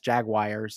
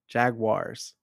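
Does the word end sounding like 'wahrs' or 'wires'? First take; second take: wires; wahrs. First: The ending sounds like 'wires'. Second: The ending sounds like 'wahrs'. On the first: The speaker calls it wrong. "I say like W-I-R-E-S" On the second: The speaker calls it right. "So it's like a W-A-H-R-S at the end, like wahrs"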